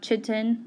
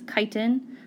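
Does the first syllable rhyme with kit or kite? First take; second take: kit; kite. First: The first vowel is short, as in kit. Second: The first vowel is long, as in kite. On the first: The speaker calls it wrong. "not chitin, like kitten" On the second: The speaker calls it right. "It's chitin, like fly kite"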